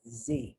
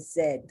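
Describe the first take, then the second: First: The letter is said as zee. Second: The letter is said as zed. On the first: "Americans say" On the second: "this is British English, not American English. Zed is the Z"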